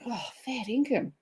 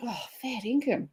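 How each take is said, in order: First: The tone sounds surprised and disbelieving. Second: The tone sounds surprised and disbelieving.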